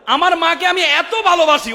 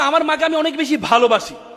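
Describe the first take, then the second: First: It is shouted in a thundering voice. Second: It is said calmly at normal volume.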